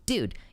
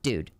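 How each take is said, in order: First: The word is said in an excited tone. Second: The word is said in a serious tone. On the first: Something exciting has happened. "you can tell that the person is, like, excited" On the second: Something serious has happened. "you know that something serious has happened"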